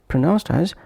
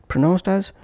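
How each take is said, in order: The two takes are said the same way.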